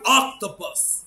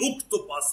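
First: The first vowel is an open 'ah' sound. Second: The first vowel is a rounded 'oh' sound. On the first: The speaker calls it right. "لا قول أكتوباس" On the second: The speaker calls it wrong. "إحنا كنا بنقوله أكتوباس"

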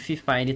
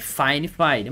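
First: The name is read as one word, 'fifine'. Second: Both syllables sound like the English word 'fine'. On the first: "se você quiser chamar de Fifine também, tá tudo bem" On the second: "o jeito correto de se pronunciar a marca é Fine Fine"

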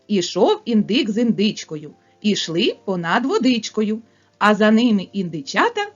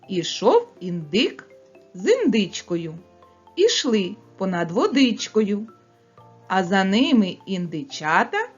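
First: It is spoken at the fastest pace. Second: It is spoken at a fast pace. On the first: "ще швидше" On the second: "Скоромовку швидко промовляємо"

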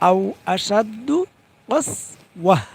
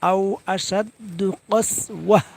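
No difference in how they are said.

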